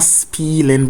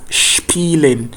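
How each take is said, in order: First: The word begins with a plain s sound. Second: The word begins with an sh sound. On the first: The speaker calls it wrong. "it's not s, so not spielen" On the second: The speaker calls it right. "but spielen. It's like English S H"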